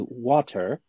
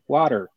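First: It is said in a British accent, clear T. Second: It is said in an American accent, soft T. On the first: "I say it that way because there's a T in water" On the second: "you speak American"

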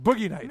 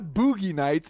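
First: It is said fast. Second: It is said slowly.

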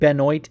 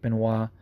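First: The name is said with an English pronunciation. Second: The name is said with a French pronunciation. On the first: "an anglicized version of what the name should be pronounced" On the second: "regional pronunciation like Benoit"

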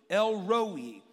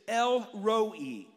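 Both takes have the same delivery.

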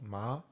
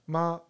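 First: The pitch rises from mid to high. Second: The pitch stays high and level. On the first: It means numb. "Second tone" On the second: It means mom. "Neutral tone"

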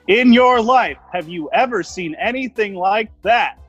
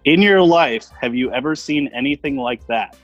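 First: It is said with an animated announcer's inflection. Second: It is read in a plain, neutral voice.

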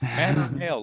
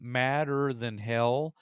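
First: It is run together as one word. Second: It is said as separate, clear words.

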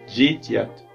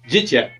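First: It is said more slowly. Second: It is said fast.

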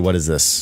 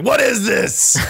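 First: The question is asked at a normal, quieter volume. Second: The question is asked at a louder volume.

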